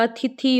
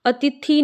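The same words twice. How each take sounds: First: अतिथि with aspirated "thi"; correct form demo. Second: अतिथि with plain t in the last syllable; wrong form demo. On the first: Teacher corrects it, अतिथि said as "a-ti-thi". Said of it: "होता है". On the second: Teacher shows the mistake, अतिथि said as "a-ti-tee". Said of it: "नहीं होता". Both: Shown as a demonstration.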